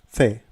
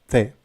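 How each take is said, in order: No difference in how they are said.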